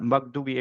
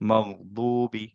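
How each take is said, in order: First: The gh sound is stopped quickly. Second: The gh sound is held for a moment. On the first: The speaker calls it wrong. "So আমরা মাগদুবি এভাবে পড়ব না।" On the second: The speaker calls it right. "একটুক্ষণ ধরে রেখে তারপর মগদুবি এভাবে পড়ব।"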